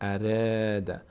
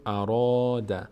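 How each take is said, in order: First: The r sound is light and thin. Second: The r sound is heavy and full. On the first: The speaker calls it wrong. "نمیگیم" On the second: The speaker calls it right. "اینجا میگیم"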